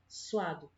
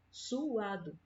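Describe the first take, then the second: First: The vowels glide together as one syllable. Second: The vowels are split into two syllables. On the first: The speaker calls it wrong. "eu não falo suado" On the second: The speaker calls it right. "Eu falo suado. ... As sílabas, elas ficam sempre bem destacadas"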